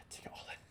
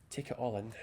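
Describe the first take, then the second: First: Soft breathy whisper after a sigh. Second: Said in the usual way. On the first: Real, not acted. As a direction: hush it out, awed.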